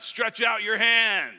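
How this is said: It is said in a mocking, ridiculing tone.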